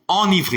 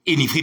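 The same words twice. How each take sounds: First: The first vowel is a nasal 'ahn' sound. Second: The first vowel is an 'ay' sound. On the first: The speaker calls it right. "c'est enivré" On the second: The speaker calls it wrong. "arrêtez de répéter enivré puisque le E n'est pas accentué"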